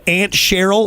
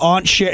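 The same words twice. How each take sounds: First: "Aunt" said like the insect ant; "ant" pronunciation. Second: "Aunt" with an open AH vowel; "ahnt" pronunciation. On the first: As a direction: say "Aunt" with the short A of "cat". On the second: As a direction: say "Aunt" to rhyme with "font". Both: Shown as a demonstration. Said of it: "you said Aunt Cheryl or Aunt Cheryl".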